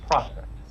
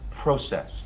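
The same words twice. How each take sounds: First: It is said in an American accent. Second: It is said in a British accent. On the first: "instead of" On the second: "the British style of words, so for example, process"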